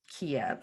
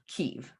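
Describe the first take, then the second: First: The name is given its Russian pronunciation. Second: The name is given its Ukrainian pronunciation. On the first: The speaker calls it wrong. "We don't want to say the Russian Kiev" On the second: The speaker calls it right. "so Kiev, right?"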